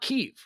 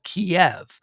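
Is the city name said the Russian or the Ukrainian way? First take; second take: Ukrainian; Russian. First: The name is said the Ukrainian way. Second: The name is said the Russian way. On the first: It uses the name the residents use. The speaker calls it right. "It's a totally different pronunciation" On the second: It uses the name chosen by the aggressors. The speaker calls it wrong. "That's the Russian pronunciation and spelling"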